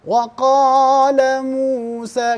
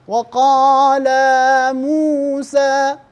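First: وقال موسى slowly recited; slow recitation. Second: وقال موسى with the alif of قال stretched long; wrong elongation demo. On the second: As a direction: say وقال as weqaala, a drawn-out extra vowel. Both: Shown as a demonstration. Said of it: "كم درجة؟".

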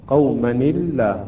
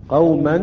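First: قومًا الله joined as "qawmani-llah", light lam; tanween with kasra. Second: قومًا alone, ending in a clear -an; clear tanween. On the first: Teacher showing lam after tanween, linked light-lam reading. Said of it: "عند ذلك ترقق اللام أيضًا". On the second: Teacher pointing out the tanween, sounded n ending. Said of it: "هنا تنوين صحيح". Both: Shown as a demonstration.

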